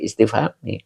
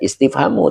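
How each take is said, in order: First: The word ends with an 'i' vowel. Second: The word ends with an 'u' vowel. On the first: The speaker calls it wrong. "tidak boleh istifhami" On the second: The speaker calls it right. "Makanya dibaca istifhamu"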